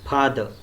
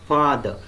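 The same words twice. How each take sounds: First: The first sound is made with both lips. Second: The first sound uses lower lip and upper teeth. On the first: The speaker calls it wrong. "many Marathi speakers will pronounce it with two lips like this" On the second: The speaker calls it right. "It should be father"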